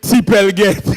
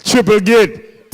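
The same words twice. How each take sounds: First: "T-Pel Gate" as "tee-PEL get"; French Creole pronunciation. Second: "Triple Gate" drawn out slowly in English; English pronunciation. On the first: Host repeating the joke, Creole-style "tee-PEL get". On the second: Host repeating the joke, slow English "Triple Gate". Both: Shown as a demonstration. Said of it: "Hold on, let me repeat".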